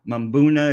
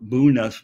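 First: The word begins with an M sound. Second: The word begins with a B sound. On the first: This is the usual pronunciation. "Mbuna is what, you know, normally I hear it called" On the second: Only some people say it this way. "I do hear it called Buna by some people"

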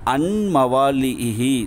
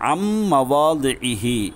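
First: A separate n sound is heard before m. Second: The n merges into a doubled m sound. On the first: The speaker calls it wrong. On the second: The speaker calls it right.

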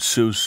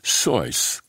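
First: The name is said with an Anglicized pronunciation. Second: The name is said with a German pronunciation. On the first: This is the popular pronunciation later embraced. The speaker calls it wrong. "people kept mispronouncing it Seuss" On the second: This is the family's original pronunciation. The speaker calls it right. "which was pronounced Seuss, the way it would be said in Germany"

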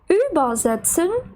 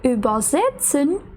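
First: The stress is on the prefix über. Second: The stress is after the prefix über. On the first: It means to ferry across. "Тут ми наголошуємо префікс «über»" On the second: It means to translate. "Але коли це übersetzen"

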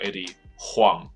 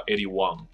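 First: The surname starts with an H sound. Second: The surname starts with a W sound. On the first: The speaker calls it wrong. "不叫做Eddie Huang" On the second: The speaker calls it right. "所以这个就有点类似H 不发音了"

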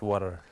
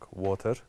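First: It is said in an American English accent. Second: It is said in a neutral English accent. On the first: "once I went to the U.S. ... cancelled everything" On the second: "I actually was speaking this kind of neutral English"

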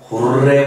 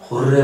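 First: It is said with a longer, stronger r. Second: It is said with a short, mild r.

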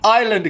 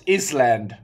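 First: The S is silent in the word. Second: The S is pronounced in the word. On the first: The speaker calls it right. "have a silent S" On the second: The speaker calls it wrong. "When I was younger, I always thought it was Island"

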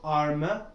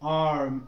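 First: An extra vowel is added after the m. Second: The word ends cleanly on the closed m. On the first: The speaker calls it wrong. "it's not arma" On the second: The speaker calls it right. "like arm"

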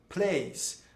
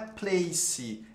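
First: The word ends cleanly on an s sound. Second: The word ends with an added vowel sound. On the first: The speaker calls it right. "Você não pronuncia esse E. Como se fosse um S" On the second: The speaker calls it wrong. "Não é place"

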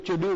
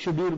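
First: The word begins with a ch sound. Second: The word begins with a sh sound. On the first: The speaker calls it wrong. "इसको चेड्यूल नहीं बोलोगे" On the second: The speaker calls it right. "शे बोलोगे ना, तो शेड्यूल बोलोगे"

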